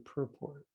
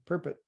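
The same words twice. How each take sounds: First: It is pronounced the usual American way. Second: It is pronounced the way some Europeans say it. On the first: The speaker calls it right. "It's actually purport" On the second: The speaker calls it wrong. "as some non-Americans say, some Europeans say"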